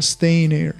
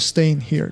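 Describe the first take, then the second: First: The h is dropped, linking into near. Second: The h in here is pronounced. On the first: "它把h 的发音弱化掉了，没有发h 的发音" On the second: "你可以读作staying here"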